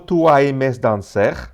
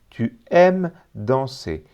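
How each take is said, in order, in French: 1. Les terminaisons des verbes se prononcent, ça finit par un 'r'. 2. Le 's' final est muet ; danser finit par 'e'. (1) "No tú aimes danser, ¿eh? No puede ser porque ... la E S del final del verbo no se pronuncia y la E R de danser ... no se pronuncia R" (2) "no se pronuncia R, sino E"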